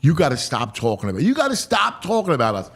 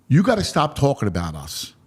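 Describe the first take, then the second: First: Incredulous echo. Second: Low, even telling-off; chastising. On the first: Host questioning the ballplayer's rebuke, incredulous. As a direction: throw the rebuke back as a quick question. Echoes the rebuke back in disbelief. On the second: Ballplayer telling the host to stop hyping them, chastising. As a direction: scold lightly in a lowered voice. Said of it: "He was kinda chastising me". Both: Retold or imitated.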